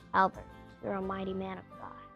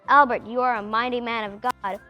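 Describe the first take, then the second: First: It is said quietly and gently. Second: It is said more loudly.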